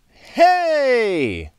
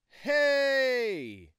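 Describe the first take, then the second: First: Recorded at high gain with some audible hiss. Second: Recorded at low gain with no audible hiss.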